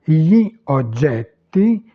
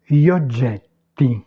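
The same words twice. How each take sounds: First: Slow "gli oggetti", cut into two words; words separated. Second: Said in the usual way. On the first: Shown as a demonstration. Teacher showing beginners how to start out, words separated. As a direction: pull "gli" and "oggetti" apart, slowly. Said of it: "vous les séparez". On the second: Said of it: "la prononciation naturelle de l'italien".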